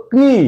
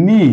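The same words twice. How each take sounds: First: ক্নি with the k sounded; spelled-out wrong pronunciation. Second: নি with a silent k; correct pronunciation. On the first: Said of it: "এটার pronunciation হতে হতো". (অক্ষর ধরে ক্নি, ক উচ্চারণ করে) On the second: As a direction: say নি, the k dropped. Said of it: "কিন্তু আমরা কি বলি?". (সঠিক উচ্চারণ নি, ক নীরব) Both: Shown as a demonstration.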